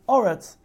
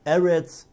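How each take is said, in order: First: The first vowel sounds like 'aw'. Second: The first vowel sounds like 'eh'. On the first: This form is used at a major pause in the verse. "when there's a Nasnachta ... we're going to call Eretz with a comment, which is Oretz" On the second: This is the ordinary form of the word. "as the Bach puts in the word over here"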